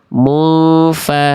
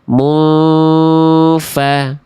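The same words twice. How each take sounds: First: The nasal hum is cut short and rushed. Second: The nasal hum is held for two beats. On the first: The speaker calls it wrong. "Jangan sampai" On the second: The speaker calls it right. "tahan dulu. Mu, udah dua ketuk, dua hitungan baru masuk fa"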